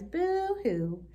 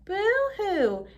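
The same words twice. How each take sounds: First: It is said softly and quietly. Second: It is said louder than before.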